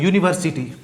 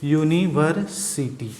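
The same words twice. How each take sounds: First: यूनिवर्सिटी with a clear yu at the start; model pronunciation. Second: यूनिवर्सिटी stretched slowly, yu-ni-ver-si-ti; slow pronunciation demo. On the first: Teacher showing students how यूनिवर्सिटी begins. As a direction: say यूनिवर्सिटी so the yu sound stands out. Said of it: "जैसे देखिए, हम बताते हैं". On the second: Teacher sounding out यूनिवर्सिटी slowly for students. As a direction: draw out यूनिवर्सिटी to show the yu sound. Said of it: "उच्चारण इसका देखिए". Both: Shown as a demonstration.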